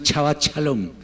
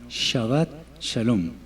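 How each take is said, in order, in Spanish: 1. Las palabras empiezan con un sonido 'ch'. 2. Las palabras empiezan con un sonido 'sh'. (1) "la pronunciación Che no existe en el idioma hebreo. Entonces no es"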